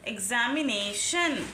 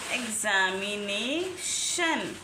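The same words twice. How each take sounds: First: Said in the usual way. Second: "examination" spelled out slowly and lower, every syllable stretched; slow, drawn-out demo. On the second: Shown as a demonstration. Teacher repeats the word slowly for students to copy. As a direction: drag "examination" out so each syllable is heard.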